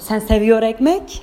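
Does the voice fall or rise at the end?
rises. The voice rises at the end. It is a question. "Soru halde şu"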